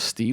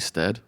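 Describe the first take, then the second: First: The vowel is a long 'ee' sound. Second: The vowel is a short 'eh' sound. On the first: The speaker calls it wrong. "I've been pronouncing his last name as Steed" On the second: The speaker calls it right. "It's actually Stead"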